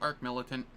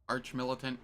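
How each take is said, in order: First: The first word ends in a hard k sound. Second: The first word ends in a ch sound. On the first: The speaker calls it right. "Arc Militant sounds better to me" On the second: The speaker calls it wrong. "I've heard it pronounced both ways"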